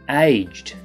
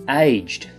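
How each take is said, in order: No difference in how they are said.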